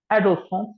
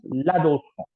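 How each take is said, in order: First: Adolescence said higher, stressed as English; English pronunciation. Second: L'adolescent with a nasal French ending; l'adolescent in French, silent final T; French pronunciation. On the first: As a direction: say Adolescence the English way, raised pitch. Teacher contrasts English and French word. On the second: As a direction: say l'adolescent as la-doh-less-ON, falling. Teacher gives the French form. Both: Shown as a demonstration.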